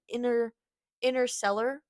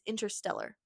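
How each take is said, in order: First: The T sound after 'in' is dropped. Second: The T sound after 'in' is pronounced. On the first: The speaker calls it wrong. "I keep saying inner interstellar, but it's I'm, I'm like skipping the T's" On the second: The speaker calls it right. "It's interstellar"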